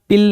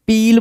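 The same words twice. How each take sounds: First: पिल with a short "i"; short vowel. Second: पील with a long "ee"; long vowel. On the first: Teacher rules out the wrong word, पिल with short "i". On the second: Teacher tells students which word was said, पील with long "ee". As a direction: stretch the vowel in पील, like peel. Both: Shown as a demonstration. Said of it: "पिल नहीं बोला".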